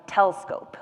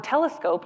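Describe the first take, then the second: First: Telescope with the middle syllable swallowed; telescoped. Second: Said in the usual way. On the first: Shown as a demonstration. Therapist shows slurred speech, telescope said as tel-scope. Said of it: "that middle syllable kind of disappears". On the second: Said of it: "the word telescope".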